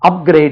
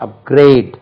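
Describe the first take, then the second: First: The stress is on the first syllable. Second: The stress is on the second syllable. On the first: The speaker calls it wrong. "இல்லை" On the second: The speaker calls it right. "Second syllable"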